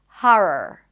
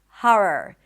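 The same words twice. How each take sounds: First: The first vowel is an open 'ah' sound. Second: The first vowel is an open 'ah' sound.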